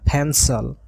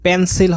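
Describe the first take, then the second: First: The p is said with a puff of air. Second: The p is said without a puff of air. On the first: The speaker calls it right. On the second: The speaker calls it wrong.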